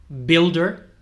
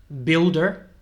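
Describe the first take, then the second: The two takes are said the same way.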